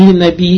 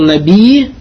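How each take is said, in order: First: The word ends with a glottal stop. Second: The word ends with a doubled y sound. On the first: "наби и на хамзу кончается" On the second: "наби на и кончается мушадда"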